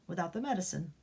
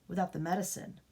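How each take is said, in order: Both takes have the same delivery.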